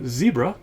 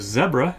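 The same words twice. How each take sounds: First: It is said with an American pronunciation. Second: It is said with a British pronunciation.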